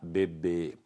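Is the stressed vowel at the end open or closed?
closed. The final stressed vowel is closed. This is the form preferred in Brazil. "Aqui no Brasil, existe a preferência da sílaba tônica fechada"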